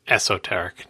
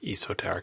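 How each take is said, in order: First: The first vowel is a short e sound. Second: The first vowel is a long e sound. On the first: The speaker calls it right. "what Marco was trying to get on you about is that it's esoteric" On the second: The speaker calls it wrong. "not esoteric. It's not a long e"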